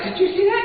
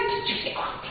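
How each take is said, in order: First: High, eager did you see that; bragging to the whole room; high gloating. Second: Whispered gloat. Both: Retold or imitated. Mimics his own gloating.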